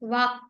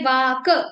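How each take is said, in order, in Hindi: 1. अंतिम क गले में ही कट जाता है। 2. अंतिम क के बाद एक स्वर आता है। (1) "हमने बोला वाक" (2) "हमने वाक ऐसा नहीं बोला"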